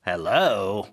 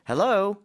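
First: The pitch rises, then falls at the end. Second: The pitch rises at the end.

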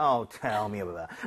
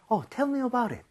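First: It sounds weary, like rolling one's eyes. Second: It sounds like a genuinely curious request.

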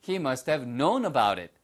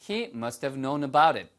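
No difference in how they are said.

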